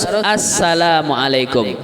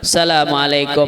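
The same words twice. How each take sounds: First: It begins with a full 'as' syllable. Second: It begins directly with 'salam', without 'as'. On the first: The speaker calls it right. "Dia harus assalamualaikum" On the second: The speaker calls it wrong. "tidak pakai as lagi, cuman assalamualaikum, tidak sah salam"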